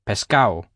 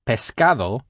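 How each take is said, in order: First: The d sound before the final o is dropped. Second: The d sound before the final o is pronounced. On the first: "don't pronounce the D in words with A-D-O in them when spoken quickly and naturally" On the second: "Something like pescado"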